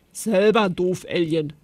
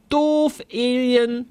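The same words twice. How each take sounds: First: Said in the usual way. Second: Put-on a child bellowing at a playmate; yelled insult. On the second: A narrator's reading. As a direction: yell it at the other kid. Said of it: "brüllte Zolli".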